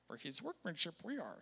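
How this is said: It is said in a Yoda impression.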